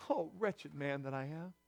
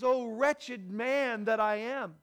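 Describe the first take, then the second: First: Low, soft, heavy quotation; subdued lament. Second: Drawn-out, slow quoted cry; impassioned lament. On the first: Preacher repeating Paul's cry after the outburst, hushed low lament. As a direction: let it sink low and quiet. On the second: Preacher voicing Paul's struggle to the congregation, slow impassioned lament. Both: Retold or imitated.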